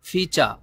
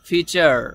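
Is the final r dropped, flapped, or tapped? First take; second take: dropped; flapped. First: The final r is not pronounced at all. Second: The final r is a light flapped sound. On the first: "এই আরটাকে silent রাখে, এটাও right" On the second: "ডয় শূন্য র এর মতো উচ্চারণ করে"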